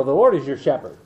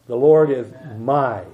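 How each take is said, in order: First: "your" leaned on, unhurried; the Lord is your shepherd, weight on "your"; stress on your. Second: "my" held and pressed, then a pause; the Lord is my, with personal weight on "my"; stress on my. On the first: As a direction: let "your" carry the line. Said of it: "it's good to go out and say". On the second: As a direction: land on "my" and let it sit. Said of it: "It's personal". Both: Shown as a demonstration.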